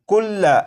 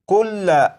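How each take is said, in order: Both takes have the same delivery.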